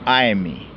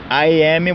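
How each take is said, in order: First: I am is contracted into one syllable. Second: I am is said as two full words.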